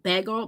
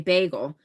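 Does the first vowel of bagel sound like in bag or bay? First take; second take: bag; bay. First: The first vowel sounds like in bag. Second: The first vowel sounds like in bay. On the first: Other local people say it this way. "some people around here say bagel like a like bag like I'm bagging" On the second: The speaker says it this way. "but I say bagel"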